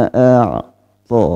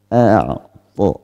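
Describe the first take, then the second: No difference in how they are said.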